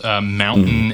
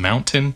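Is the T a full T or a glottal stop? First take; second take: glottal stop; full T. First: The T is a glottal stop. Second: The T is a full T. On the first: "the T is a glottal stop" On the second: "versus just being what it typically is"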